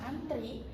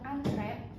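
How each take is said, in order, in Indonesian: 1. Kata itu diakhiri dengan vokal 'ee'. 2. Kata itu diakhiri dengan vokal 'eh'. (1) "yang antri" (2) "yang benar itu adalah ibu sedang antre"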